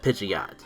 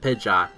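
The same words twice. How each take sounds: First: It is said keeping the full Pidgey part. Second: It is said without the full Pidgey part. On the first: This keeps the name in line with its family. The speaker calls it right. "You keep the whole Pidgey part of the name" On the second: This is how the makers chose to say it. The speaker calls it wrong. "whoever made the decision to pronounce it"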